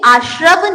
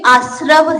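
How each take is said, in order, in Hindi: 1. बीच का संयुक्त व्यंजन 'shr' की तरह बोला जाता है। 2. बीच का संयुक्त व्यंजन 'sr' की तरह बोला जाता है। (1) "ये श्रद्धा वाला श्र नहीं है" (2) "स में र है, श्र नहीं है, स्र है"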